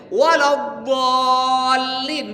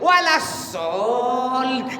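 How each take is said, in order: First: The word has a clear emphatic dhad sound. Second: The dhad sound is replaced by a weak s. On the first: The speaker calls it right. "lidah kau tekan ke gigi kau" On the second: The speaker calls it wrong. "Apa dia baca?"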